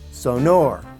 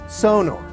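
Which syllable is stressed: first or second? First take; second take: second; first. First: The stress is on the second syllable. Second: The stress is on the first syllable. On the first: This is how Germans say it. "Accent is on the second syllable" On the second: This is a close, acceptable variant. "where the accent is on the first syllable"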